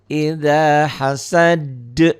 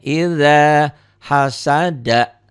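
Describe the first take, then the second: First: It ends on a bouncing, echoed d sound. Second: It ends with a short final vowel. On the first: "Dihentikan jadi qalqalah" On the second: "Kalau nggak dihentikan nggak jadi"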